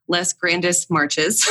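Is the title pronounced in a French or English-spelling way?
English. It is read out as spelled in English.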